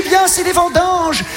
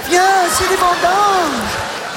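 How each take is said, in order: First: Mock call. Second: Slow echo. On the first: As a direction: shout it like a cheerful summons. Hair tuft calling him. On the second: Acted. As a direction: drag out every syllable of the summons. Slowed repeat of the call.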